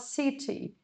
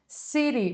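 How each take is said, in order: First: It is said with a British accent. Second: It is said with an American accent.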